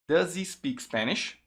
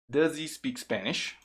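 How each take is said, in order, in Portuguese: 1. O som do z se liga ao 'he', com o h mudo. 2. O som do z se liga ao 'he', com o h mudo.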